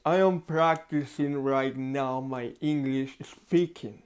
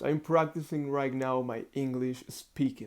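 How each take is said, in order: First: Words pushed around a pencil between the teeth; slow and muffled, mouth held open by a pencil; talking with a pencil in mouth. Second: Said in the usual way. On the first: Shown as a demonstration. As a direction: speak with a pen held in your mouth. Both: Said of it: "Look at this".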